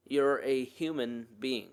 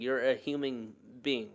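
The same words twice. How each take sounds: First: Slow, deliberate repeat to let it sink in; slow emphasis. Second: Said in the usual way. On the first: Real, not acted. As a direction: say each word slowly and deliberately. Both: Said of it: "I just want that to settle in".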